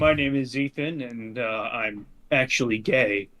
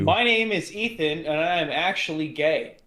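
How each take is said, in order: First: It is said in a put-on, deeper voice. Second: It is said in a natural everyday voice.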